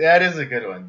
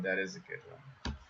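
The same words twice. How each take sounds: First: Said in the usual way. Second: Soft mumbled repeat; muttered agreement under the breath; quiet echo. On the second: Real, not acted. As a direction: murmur it to yourself. Echoed quietly to himself.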